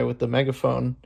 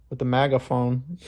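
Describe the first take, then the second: First: Said in the usual way. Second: "megaphone" said with MAG- for MEG-; punning pronunciation. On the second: Real, not acted. Vlogger puns on the MAGA guy, "megaphone" as MAGA-phone. Pun on MAGA, then laughs.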